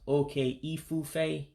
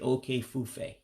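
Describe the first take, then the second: First: The i sound before fufe is pronounced. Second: The i sound before fufe is dropped. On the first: "instead of those two words being pronounced okay ifufe" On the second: "you just say okay fufe"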